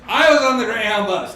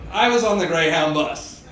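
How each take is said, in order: First: Louder, higher triumphant restart; proud storyteller. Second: Said in the usual way. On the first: Shown as a demonstration. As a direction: launch the story with pride. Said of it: "repeated line". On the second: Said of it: "repeated louder".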